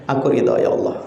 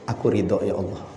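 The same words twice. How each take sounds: First: Whispered surrender to God. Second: Said in the usual way. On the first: Retold or imitated. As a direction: breathe the words, voiceless. Prayer repeated, whispered. (berbisik pasrah)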